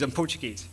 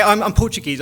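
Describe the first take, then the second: First: Much lower, softer embarrassed repeat; embarrassed aside. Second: Embarrassed excuse. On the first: Speaker excusing their accent to philosophers, quietly embarrassed. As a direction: drop it to a sheepish undertone. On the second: Speaker excusing their accent to philosophers, embarrassed. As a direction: blurt it out as an awkward excuse. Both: Retold or imitated. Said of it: "I'm embarrassed by my accent sometimes".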